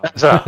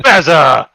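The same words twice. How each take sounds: First: Said in the usual way. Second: Bazza! drawn out slowly and louder; called out Bazza. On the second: Shown as a demonstration. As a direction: hail him across the pub with a long, loud Bazza!. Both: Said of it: "who's not called Bazza".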